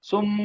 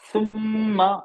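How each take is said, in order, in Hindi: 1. शब्द लंबे नासिक्य m पर खत्म होता है। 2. शब्द के अंत में एक स्वर आता है। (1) "अब यहाँ रुक रहे हैं, सुम ... मीम साकिन को हमने लंबा कर देंगे" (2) "आखिर में सुम्मा"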